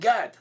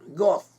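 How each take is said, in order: First: It has an a vowel and ends in d. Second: It has an o vowel and ends in th. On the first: This is the modern Hebrew pronunciation. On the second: This is a possible ancient biblical pronunciation. "The name Gad in Biblical Hebrew could be uh, pronounced as Goth"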